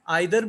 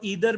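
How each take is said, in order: First: The first vowel sounds like 'eye'. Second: The first vowel sounds like 'ee'. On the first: "आइदर भी ठीक है" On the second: "ईदर भी ठीक है"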